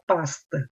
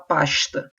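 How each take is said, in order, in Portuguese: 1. O s é um chiado simples. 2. O s soa como sh. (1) "não fala pasta. O S, vamos dizer, sibilante" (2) "Como se tivesse o som do X, o S"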